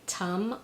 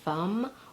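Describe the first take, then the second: First: The word begins with a T sound. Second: The word begins with an F sound. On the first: "or as a T" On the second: "gets mispronounced as an F"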